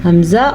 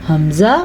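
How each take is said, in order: No difference in how they are said.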